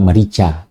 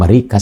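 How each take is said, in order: First: The middle consonant is a ch sound. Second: The middle consonant is a hard k sound. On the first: The speaker calls it right. "dibacanya juga merica" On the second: The speaker calls it wrong. "bukan Merika sebenarnya"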